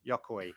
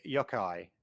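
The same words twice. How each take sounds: First: Yokoi said as "YOK-oy"; corrected pronunciation attempt. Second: Yokoi said as "YOK-eye"; pronunciation attempt. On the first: Host retrying an engineer's name, Yokoi ending like "oy". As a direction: end Yokoi on an "oy" sound, lower and quieter. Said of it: "Sorry, Yoshida, for the pronunciation". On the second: Host trying out an engineer's name, Yokoi ending like "eye". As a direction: end Yokoi on an "eye" sound. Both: Real, not acted.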